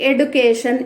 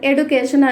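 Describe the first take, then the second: No difference in how they are said.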